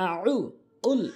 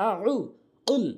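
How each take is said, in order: No difference in how they are said.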